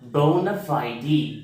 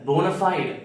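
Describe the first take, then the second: First: The word ends on an 'ee' sound. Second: The word ends on a 't' sound. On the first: The speaker calls it right. "சரியா படிக்கணும்னா போனஃபைடி அப்படின்னு படிக்கணும்" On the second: The speaker calls it wrong. "இந்த வேர்டை போனஃபைட் அப்படின்னு படிக்கக்கூடாது"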